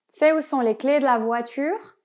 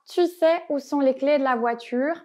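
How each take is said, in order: First: The vowel of 'tu' is dropped, giving 't'sais'. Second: The word 'tu' is pronounced in full. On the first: This is the quicker, everyday spoken form. "on va plutôt dire sais que tu sais" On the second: This is the full form that matches the written version. "et pas tu sais"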